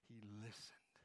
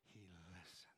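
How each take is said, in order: First: Said in the usual way. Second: Whispered. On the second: Shown as a demonstration. Preacher leading the church in the phrase, whispered softly. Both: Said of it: "Say that with me".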